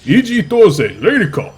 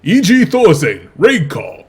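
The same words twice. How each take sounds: First: Loud, high announcer shout with Raid turned into "Lady"; Korean announcer, "Lady Call". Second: Loud, high-pitched announcer shout; Korean Street Fighter announcer. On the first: Caster correcting his imitation for his co-caster, Korean announcer shouting "Lady Call". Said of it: "he says Lady Call, actually". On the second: Caster showing co-caster how the GSL guy says it, loud Korean announcer voice. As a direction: boom it out like a fighting-game announcer, ending on "Raid Call". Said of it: "like the, uh, the Korean Street Fighter voice announcer".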